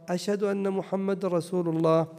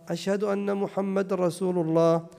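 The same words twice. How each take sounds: No difference in how they are said.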